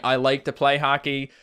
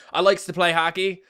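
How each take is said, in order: First: Said in the usual way. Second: "likes" with an added S, higher-pitched; Newfoundland added S. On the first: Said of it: "instead of saying". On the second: Shown as a demonstration. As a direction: say "likes" for "like", ending in S. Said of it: "add S's to things".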